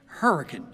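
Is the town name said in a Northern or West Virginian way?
West Virginian. The name is said in the local West Virginian way. The speaker calls it right. "say it right"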